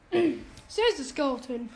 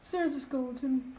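First: Slower and clearer, raised a little; to someone hard of hearing. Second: Said softly under breath; mumbled. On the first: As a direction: spell it out slowly for them. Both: Acted. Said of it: "can you speak up".

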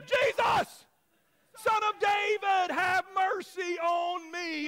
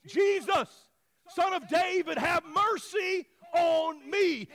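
First: High, full-voiced shout, drawn out at the end; even louder cry. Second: Loud, high drawn-out plea; screaming out. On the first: Blind beggar defying the crowd, louder screamed plea. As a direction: belt the plea out in defiance. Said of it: "say it a little bit louder". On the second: Acted. Blind beggar calling to passing Jesus, screaming out. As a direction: cry out for mercy over a crowd. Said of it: "so he screams out".

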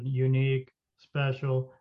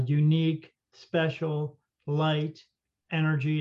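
First: Lower, even robotic voice, one word at a time; computer voice. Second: Flat, even machine voice, word by word; computer voice. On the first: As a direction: mimic the machine reading out words. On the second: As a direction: read each word like a talking gadget. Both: Retold or imitated. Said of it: "It said it in this computer voice".

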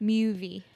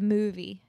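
First: Movie with a Y glide, MYOO-vee; friends' accented pronunciation. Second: Said in the usual way. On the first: Shown as a demonstration. Showing how friends say movie, MYOO-vee. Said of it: "My friends would say movie instead". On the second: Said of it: "instead of movie".

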